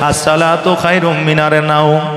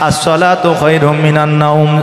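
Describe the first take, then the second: First: The word before naum ends in an r sound. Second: The word before naum ends in an n sound. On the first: The speaker calls it wrong. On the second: The speaker calls it right.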